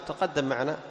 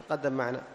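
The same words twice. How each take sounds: The two takes are said the same way.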